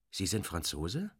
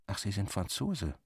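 First: Franzose asked with the pitch rising at the end; question, rising tune. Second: Franzose said as a flat statement, pitch falling at the end; statement, falling tune. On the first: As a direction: ask it with surprise, Franzose going up. Rückfrage im Dialog. (Franzose als Frage, steigend betont) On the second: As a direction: state it calmly, letting Franzose fall. Feststellung im Dialog. (Franzose als Feststellung, fallend betont) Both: Acted.

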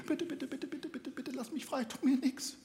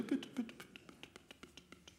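First: High, soft begging bird; pleading bird voice. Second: High, fading whispered pleading; trembling voice. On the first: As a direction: beg in a tiny high bird voice. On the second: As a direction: beg with a trembling, dying voice. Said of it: "mit zitternder Stimme". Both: Acted.

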